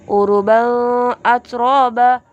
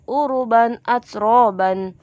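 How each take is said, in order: First: The tanwin n sound is blurred or dropped. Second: The tanwin n sound is pronounced clearly. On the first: The speaker calls it wrong. "bukan bacanya" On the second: The speaker calls it right. "maka dibaca jelas"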